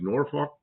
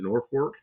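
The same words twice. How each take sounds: First: The second syllable has no R sound. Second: The second syllable has an added R sound. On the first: This is how the spelling suggests it. "it looks like Norfolk" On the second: This is how the locals say it. "they pronounce it Norfolk, like there's an R in it"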